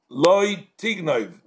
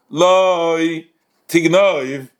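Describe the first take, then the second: First: It is said as one phrase without pause. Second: There is a break after 'lo'.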